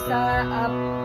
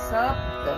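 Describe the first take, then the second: First: The word is broken into two separate parts. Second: The word is said smoothly as one unit. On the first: The speaker calls it wrong. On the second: The speaker calls it right.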